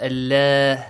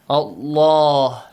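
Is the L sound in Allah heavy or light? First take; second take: light; heavy. First: The L is pronounced light and thin. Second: The L is pronounced heavy, with a full mouth. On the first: The speaker calls it wrong. "Not Allah" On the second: The speaker calls it right. "must be pronounced heavily"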